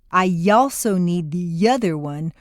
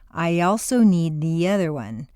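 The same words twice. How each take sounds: First: A strong, pushed Y sound links the words. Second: A light Y glide links the words. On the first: The speaker calls it wrong. "would sound really weird" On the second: The speaker calls it right. "your lips will be pulled back far enough to create a Y glide or liaison"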